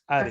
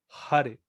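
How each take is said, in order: First: The word begins directly with the vowel, h silent. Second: The word begins with an audible h sound. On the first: The speaker calls it wrong. "no es Hare" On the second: The speaker calls it right. "tenemos que pronunciar la H"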